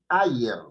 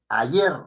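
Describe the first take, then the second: First: The stress is on the first syllable. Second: The stress is on the last syllable. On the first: The speaker calls it wrong. "no es ayer" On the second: The speaker calls it right. "sino es ayer. Está en la última sílaba"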